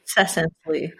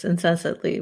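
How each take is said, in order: First: "incessantly" said as in-SESS-ant-ly; corrected pronunciation. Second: "incessantly" slurred as in-SEN-sat-ly; unsure pronunciation. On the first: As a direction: say "incessantly" with no n before the second s. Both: Real, not acted. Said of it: "is that that word?".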